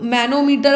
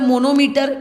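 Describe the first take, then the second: First: The first vowel is an 'a' sound. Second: The first vowel is an 'o' sound. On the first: The speaker calls it right. "But it is मैनोमीटर" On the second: The speaker calls it wrong. "मेरे मुंह से usually मोनोमीटर निकल जाता है"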